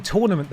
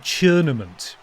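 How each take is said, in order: First: Said in the usual way. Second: "churnament" with a CH sound at the start, drawn out; tournament as churnament. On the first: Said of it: "instead of saying tournament". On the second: Shown as a demonstration. Streamer shows chat the voice actor's slip, "churnament" with CH. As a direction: say "churnament", opening on "chur" where "tour" would be. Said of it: "the horrible accent they did".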